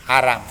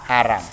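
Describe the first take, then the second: Both takes have the same delivery.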